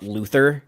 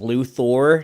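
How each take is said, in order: First: The final syllable sounds like 'ther'. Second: The final syllable sounds like 'thor'. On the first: The speaker calls it wrong. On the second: The speaker calls it right. "you're supposed to say Lexa's last name as"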